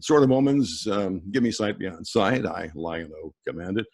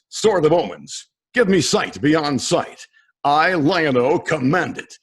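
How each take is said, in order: First: It is said in a casual conversational way. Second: It is said in a more dramatic way.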